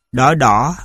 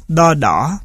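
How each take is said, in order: First: Said in the usual way. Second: Level "đo", then dipping "đỏ"; "đo đỏ" with two different tones; tone dissimilation. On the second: Shown as a demonstration. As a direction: keep "đo" unmarked and level before "đỏ" dips. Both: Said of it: "còn xảy ra chỉ ở thanh điệu".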